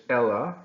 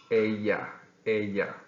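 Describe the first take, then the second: First: "Ella" said the English way, EL-uh with a clear L; "Ella" like the English girl's name. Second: "ella" with the double L said like a Y, eh-yah; "ella" as eh-yah, Y sound for the LL; Spanish ella. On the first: Teacher contrasting the English name, "Ella" read as in English. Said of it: "looks like the name in English". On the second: Teacher showing students the Spanish way, "ella" as eh-yah. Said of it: "The double L is pronounced like a Y". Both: Shown as a demonstration.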